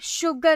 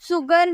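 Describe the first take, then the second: First: The word begins with an sh sound. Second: The word begins with an s sound. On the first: The speaker calls it right. "शुगर हम बोलते हैं। श का sound आ रहा" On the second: The speaker calls it wrong. "पर सुगर नहीं"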